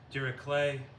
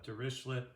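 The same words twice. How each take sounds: First: The name is pronounced in a non-anglicized way. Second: The name is pronounced in an anglicized way. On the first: "but uh, we'll say" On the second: "some say in anglicized version"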